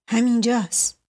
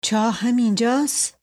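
First: همینجاست settled with a falling tune; answering. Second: Rising question on همینجاست; asking. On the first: Scene: Hasani confirms to Mashdi Jabbar, falling answer. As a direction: close همینجاست with a firm fall. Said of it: "حسنی جواب داد". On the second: Scene: boy asks his companion at the well, rising question. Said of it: "پرسید". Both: A narrator's reading.

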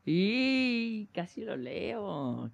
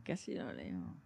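First: Drawn out and slow. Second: Soft, muttered under breath; quiet repeat. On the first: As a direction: stretch it out slowly. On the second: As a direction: drop to a murmur. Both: Real, not acted.

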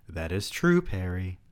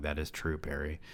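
First: Read as written. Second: Quiet, flat mocking repeat of "That is true, Perry."; deadpan mockery. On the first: Acted. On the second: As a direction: say "That is true, Perry." softly, as if it were the dumbest line ever. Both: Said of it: "Wow, amazing dialogue".

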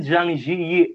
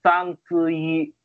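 First: "Zhang Ziyi" slowly said as JANG JEE-yee; as written. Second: "Zhang Ziyi" slowly said as SANG SOO-ee; corrected pronunciation. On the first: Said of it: "tulisannya emang kayak gitu". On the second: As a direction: say "Zhang Ziyi" with s sounds, drawn out. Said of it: "tapi bacanya". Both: Retold or imitated.

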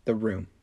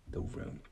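First: Said in the usual way. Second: "The Room" whispered dramatically. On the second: Shown as a demonstration. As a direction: hush it like a secret. Dramatic repeated title.

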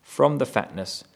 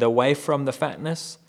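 First: FROM placed firmly with a falling tune; stress on from. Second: AWAY lifted and rising; stress on away. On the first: Preacher giving the other translation, weight on FROM. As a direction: hit FROM as the other reading. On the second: Preacher contrasting translations, rising stress on AWAY. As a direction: point the listener at AWAY. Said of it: "there's a big difference there with". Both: Shown as a demonstration.

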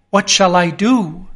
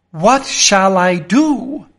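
First: Said in the usual way. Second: Slow, lost, worried asking; helpless, frightened mumble to himself; slow anxious repeat. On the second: Acted. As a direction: turn the question over in despair. Same question repeated.

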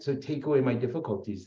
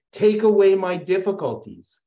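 First: Said in the usual way. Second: Fervent prayer. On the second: Retold or imitated.

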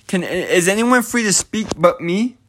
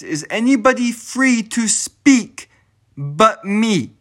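First: Said in the usual way. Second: "Is anybody free to speak but me" slowed right down, each word weighted; asking again in earnest to stress that he means it; slow deliberate repeat. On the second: Real, not acted. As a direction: lean on every word so it lands as a real question. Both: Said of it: "I asked that dead ass".

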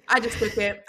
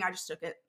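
First: Louder, firmer repeat; emphatic repeat. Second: Low, softer confession; quiet aside. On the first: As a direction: state it plainly and boldly. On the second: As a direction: say it under your breath. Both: Real, not acted. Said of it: "repeated line".

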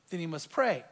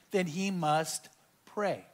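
First: Said in the usual way. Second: Slowly, word by word; slow emphasis. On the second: Shown as a demonstration. Preacher quoting James to the congregation, slow and weighty. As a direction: lean on each word slowly.

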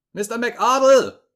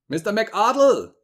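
First: Even louder, much higher, slow yell of the name; louder desperate shout. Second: Much higher, loud, slow shout of a name; desperate shout. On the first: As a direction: yell again, more frantic. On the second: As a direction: shout his name into the dead phone. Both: A narrator's reading. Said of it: "schrie ich".

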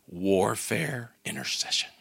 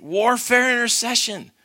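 First: Low, soft and intense, holding back fire; quiet intensity with a hint of fire; fiery, quiet answer. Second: Bold declaration. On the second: Retold or imitated. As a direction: announce it boldly with fire. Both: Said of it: "she looks up with this fire in her eyes".

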